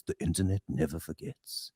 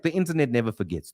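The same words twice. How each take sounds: First: Much lower, softer, regal lion-king rumble; deep wise lion king pronouncing a truth; Mufasa voice. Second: Said in the usual way. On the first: Retold or imitated. Host drops into Mufasa's voice for the internet line. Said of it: "Sounds like something Mufasa says". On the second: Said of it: "plain take before Mufasa voice".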